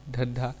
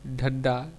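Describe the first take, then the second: First: Said in the usual way. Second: धंधा ending in plain "da", "dhanda"; deaspirated dialect form. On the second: Shown as a demonstration. Lecturer showing Kauravi speech, धंधा said as "dhanda". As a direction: drop the second aspiration in धंधा. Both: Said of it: "महाप्राण के अल्पप्राण कर देने".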